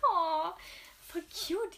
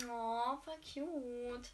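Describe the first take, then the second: First: Much higher, louder squealing oh, voll cute; excited squeal. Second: Drawn-out, slow swooning aww; gushing. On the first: Reader squealing high and loud over the love story. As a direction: squeal with delight at the sweetness. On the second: Reader swooning slowly over a sweet love scene. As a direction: melt over the sweet moment, stretching every word. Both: Real, not acted.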